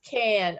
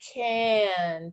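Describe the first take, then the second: First: The word is said quickly as one blended unit. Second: The word is said somewhat faster, partly blended. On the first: "say it really fast" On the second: "say it a little faster"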